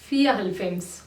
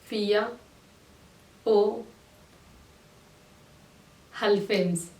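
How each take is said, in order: First: The middle word is reduced and blended in. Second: The middle word is a full, separate 'o' sound.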